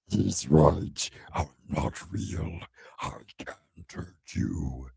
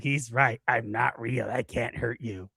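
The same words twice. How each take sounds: First: It is said in a put-on demon voice. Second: It is said in his normal voice.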